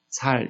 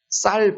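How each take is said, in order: First: The first consonant is a plain s. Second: The first consonant is a tense s. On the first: This is how some regional speakers say it. The speaker calls it wrong. "살 이렇게 하시듯이" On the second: This is the standard form of the word. The speaker calls it right. "쌀 발음 잘 못하듯이"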